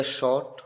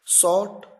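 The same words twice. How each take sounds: First: शॉर्ट said as "short", opening on sh; SH sound. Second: शॉर्ट said as "sort", with plain s; S sound. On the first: Teacher contrasting confusing words, शॉर्ट opened with sh. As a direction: start शॉर्ट with sh, not s. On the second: Teacher contrasting confusing words, शॉर्ट opened with s. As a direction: start शॉर्ट with s, not sh. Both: Shown as a demonstration. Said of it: "confusing pronunciation words".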